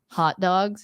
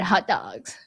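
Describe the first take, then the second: First: It is said in a plain, standard accent. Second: It is said in a gushing valley-girl voice. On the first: "you'd say it like proper English" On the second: "or like, oh my god, hot dogs. Like if you're a girl"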